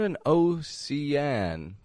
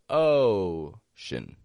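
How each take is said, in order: First: The second vowel is a full vowel. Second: The second vowel is a reduced schwa. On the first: The speaker calls it wrong. "Not an ocean" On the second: The speaker calls it right. "but ocean. Shin. Schwa"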